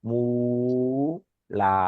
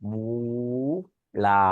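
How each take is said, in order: Both takes have the same delivery.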